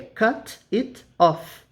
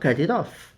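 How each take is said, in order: First: Each word is said separately and distinctly. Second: The words are run together into one. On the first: "Na verdade, é" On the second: "mas eu falo ... observem que a gente junta os sons"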